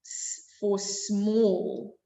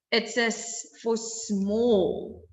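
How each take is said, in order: First: "S for small" dragged out slowly. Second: Slow teaching emphasis. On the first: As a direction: spell out "S for small" word by word. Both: Shown as a demonstration. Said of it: "repeated teaching phrase".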